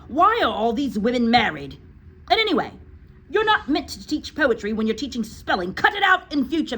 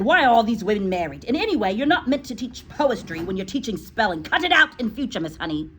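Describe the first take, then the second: First: Loud, high headmistress scolding. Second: Loud, quicker scolding reread; re-read scolding. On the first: Acted. Trunchbull scolds Miss Honey about the song, loud and high. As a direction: berate the teacher loudly. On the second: Retold or imitated. Teacher rereads the Trunchbull's rebuke to the class, loud. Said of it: "that's why she said".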